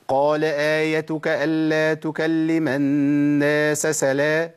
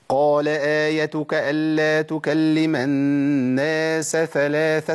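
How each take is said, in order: First: ثلاثة slurred into سلا with an s; خطأ إبدال الثاء سينا; wrong recitation. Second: Slow recited ثلاثة with a clear th after الناس; تلاوة صحيحة بطيئة; correct recitation. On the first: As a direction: show the mistake الناس سلا. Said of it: "ما ينفعش". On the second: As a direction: keep the s of الناس apart from the th of ثلاثة. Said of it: "ده الصواب". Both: Shown as a demonstration.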